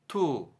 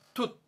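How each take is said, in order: First: The syllable stays open with the breath flowing. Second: The syllable is cut off with a sudden stop. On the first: The speaker calls it right. "호흡도 안 끊기고 자연스럽게" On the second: The speaker calls it wrong. "툿 하시면 안 됩니다"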